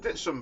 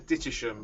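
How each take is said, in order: First: The name is said short, with two syllables. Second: The name is said in full, with three syllables. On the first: This is how locals say it. "as we would pronounce it down here" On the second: This follows the written spelling. "as it's spelt"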